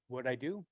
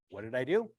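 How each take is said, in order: First: Said in the usual way. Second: "What did I do?" asked again much louder, leaning on "do"; "do" hit loud with a rising finish; louder repeat. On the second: Shown as a demonstration. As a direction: punch "do" harder the second time.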